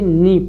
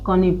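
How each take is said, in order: First: The word starts with an n sound, no k. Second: The word starts with an audible k sound. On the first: The speaker calls it right. "नी पढ़ेंगे" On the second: The speaker calls it wrong. "इसको कनी पढ़ते"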